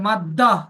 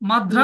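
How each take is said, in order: First: The middle consonant is a long doubled d. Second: The middle consonant is a d followed by r. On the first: The speaker calls it right. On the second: The speaker calls it wrong.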